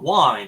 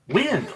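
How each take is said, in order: First: The vowel is long, rhyming with find. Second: The vowel is short, rhyming with pinned. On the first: The word means turning a watch's crown. The speaker calls it wrong. "not wind like a watch" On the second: The word names moving air. The speaker calls it right. "like the air"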